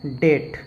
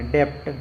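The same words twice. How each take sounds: First: डेट with silent B; correct pronunciation. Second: डेप्ट with the P sounded before T; wrong pronunciation. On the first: Teacher gives learners the right reading, डेट without any B. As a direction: say डेट with only T after the vowel. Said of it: "लेकिन इसका सही उच्चारण क्या है". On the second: Teacher shows learners' misreading, डेप्ट with an extra consonant before T. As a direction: read डेप्ट letter by letter, consonant before T voiced out. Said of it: "यदि आपको ये rule पता नहीं रहता". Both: Shown as a demonstration.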